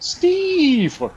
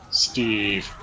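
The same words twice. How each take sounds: First: The name is said with delight. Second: The name is said with disdain.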